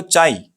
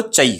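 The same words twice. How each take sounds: First: Relaxed, full-length "चाय" with a long aa; unhurried pronunciation. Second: "चाय" said fast with a short vowel; quick pronunciation. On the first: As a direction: say "चाय" at ease, vowel drawn out. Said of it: "अगर आप आराम से pronounce करें". ("चाय" को आराम से, लंबा बोलें) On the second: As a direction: rush "चाय" so it shrinks to "chai". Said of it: "अगर तेजी से प्रोनाउंस करें तो". ("चाय" को तेजी से, छोटा बोलें) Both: Shown as a demonstration.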